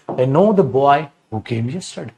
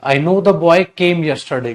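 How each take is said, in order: First: Slow, careful correct sentence with who; correct version, said slowly. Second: Slow, spaced-out wrong sentence; wrong version, said slowly. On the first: Teacher slowly reads the corrected sentence to students. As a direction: spell it out slowly so it sinks in. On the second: Teacher slowly reads out the wrong sentence to students. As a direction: read it out word by word, slowly. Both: Shown as a demonstration. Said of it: "गलत".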